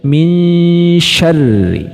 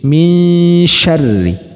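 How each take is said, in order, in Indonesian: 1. Bunyi n agak kabur, condong ke bunyi sh. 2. Bunyi n agak kabur, condong ke bunyi sh.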